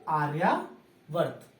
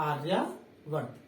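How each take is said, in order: Both takes have the same delivery.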